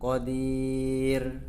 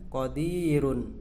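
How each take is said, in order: First: The word stops short on the final consonant. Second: The word ends with a vowel and nasal ending.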